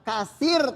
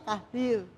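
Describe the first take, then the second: First: The middle consonant is a hissing s sound. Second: The middle consonant is a soft th sound. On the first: The speaker calls it wrong. "jangan berdesis" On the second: The speaker calls it right. "Lidahnya digigit"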